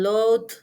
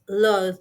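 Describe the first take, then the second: First: The word ends with a d sound. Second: The word ends with a th sound. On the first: The speaker calls it wrong. "substitute it with the or even t" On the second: The speaker calls it right. "the correct pronunciation is loud"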